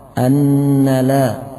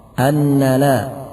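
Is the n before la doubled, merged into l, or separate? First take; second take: doubled; doubled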